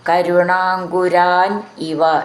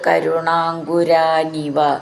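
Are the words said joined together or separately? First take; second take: separate; joined. First: The words are said as separate words. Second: The words are run together as one word.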